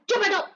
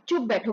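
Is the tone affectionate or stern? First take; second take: stern; affectionate. First: It is said in a harsh, stern tone. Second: It is said in a warm, affectionate tone. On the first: The speaker is scolding the listener. "देखिए tone में change आ गया" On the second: The speaker is gently fond of the listener. "ऐसा बोले तो हमें लगता है कि वो प्यार से बोल रहे हैं"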